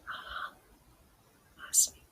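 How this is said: It is said in a whisper.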